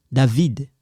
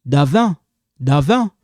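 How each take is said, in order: First: "David" with the d clearly sounded; full David. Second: "Davin" with no final d, nasal end; clipped Davin. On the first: Teacher giving the full name as contrast. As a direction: say "David" with the final d. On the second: Teacher repeating the clipped form to the class. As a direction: say "Davin" as davɛ. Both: Shown as a demonstration. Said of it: "They just cut it like this".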